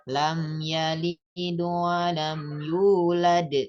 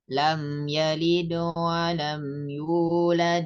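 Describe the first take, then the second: First: The final d bounces strongly before a stop. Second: The final d bounces lightly and flows onward. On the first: The reading stops at the end of the verse. "Itu kolkolah kubro ... pantulannya itu lebih keras" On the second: The verses are read joined together. "diwasol atau dibaca terus ... kolkolah sugro ini dibacanya tidak terlalu kentara"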